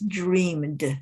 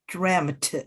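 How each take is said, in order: First: It has a long 'ee' vowel ending in 'd'. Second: It has a short 'eh' vowel ending in 't'. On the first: "some people would still pronounce it as dreamed" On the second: "some people would pronounce it as dreamt"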